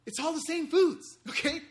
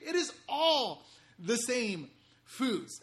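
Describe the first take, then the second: First: Laughing, pitched up and louder; giddy laughing punchline; laughing reveal. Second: IS leaned on hard, words drawn out slowly; "It is all the same foods", stress on "is", each word spaced slowly; slow emphatic repeat. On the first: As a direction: blurt it out through a laugh. Excited reveal of the shortcut. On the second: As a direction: hammer home "is" with a chuckle. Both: Real, not acted.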